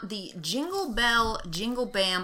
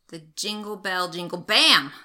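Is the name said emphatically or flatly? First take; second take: flatly; emphatically. First: The name is read out flatly, without emphasis. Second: The name is said forcefully, stressing bam.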